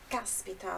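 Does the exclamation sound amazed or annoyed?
annoyed. It sounds annoyed and resentful. The speaker is upset about a missed event. "pode também indicar impaciência ou ressentimento"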